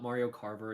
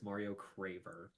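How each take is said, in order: First: The surname begins with the sounds 'car'. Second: The surname begins with the sounds 'cra'. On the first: The speaker calls it wrong. "It's not Mario Carver" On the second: The speaker calls it right. "it's Mario Craver"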